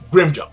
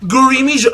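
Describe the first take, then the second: First: The name is said short and clipped. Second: The name is drawn out with extra vowels. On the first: The speaker calls it right. "It's to the fucking point" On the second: The speaker calls it wrong. "it's not Grimjo, it's Gurimijo"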